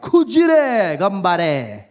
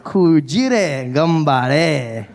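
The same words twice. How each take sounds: First: Very slow drawn-out Kujire gambare; a slow hammed-up Japanese phrase; slow mock Japanese. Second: Very slow drawn-out Kujire gambare; a very slow hammed-up Japanese phrase; slow mock Japanese. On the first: Shown as a demonstration. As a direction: stretch out Kujire gambare carefully. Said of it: "You can say other things". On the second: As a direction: stretch Kujire gambare out solemnly. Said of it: "I went".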